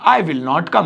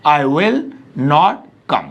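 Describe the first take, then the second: First: Said in the usual way. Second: "I will / not come" with a pause inside; broken into parts. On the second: Shown as a demonstration. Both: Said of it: "अब आगे बोलिए".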